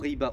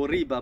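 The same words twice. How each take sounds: First: The word is pronounced with French sounds. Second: The word is pronounced with Arabic sounds. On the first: The speaker calls it wrong. "je l'ai prononcé à la française" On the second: The speaker calls it right.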